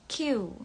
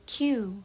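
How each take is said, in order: Both takes have the same delivery.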